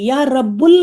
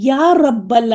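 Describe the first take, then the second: First: The second word ends with a 'u' vowel. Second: The second word ends with an 'a' vowel. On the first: The speaker calls it wrong. "या रब्बुल नहीं कहेंगे अब" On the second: The speaker calls it right. "इसी तरह या रब्बल आलमीन कहेंगे"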